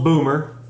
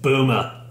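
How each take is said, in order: First: It is said in a plain, non-Australian accent. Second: It is said in an Australian accent.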